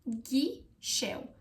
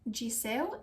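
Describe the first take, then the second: First: The middle consonant is an sh sound. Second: The middle consonant is an s sound. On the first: The speaker calls it right. "it's ghișeu" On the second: The speaker calls it wrong. "it's not Giseu"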